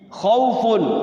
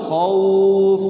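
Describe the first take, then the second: First: The word ends with the full -un ending. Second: The word stops short with the ending dropped.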